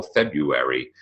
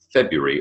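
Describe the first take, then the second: First: February said in four syllables, Feb-ru-ar-y. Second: February said as Feb-yuh-ree, three syllables. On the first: Teacher comparing colleague's February with own. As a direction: spell out every syllable of February. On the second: Teacher giving own February versus colleague's. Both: Shown as a demonstration. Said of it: "Is it three syllables or four".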